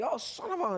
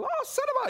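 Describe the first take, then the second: First: Higher, softly blurted near-curse; exasperated parent. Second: Very high-pitched child mimicking a parent; parroting little kid. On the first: Acted. Parent slipping up near little kids, exasperated. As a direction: let a half-finished curse slip out, pitched up. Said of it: "and you could say". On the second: Little kid repeating the parent's near-curse, parroting in a high voice. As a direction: squeak it back like a small copycat. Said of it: "start to repeat things that you say".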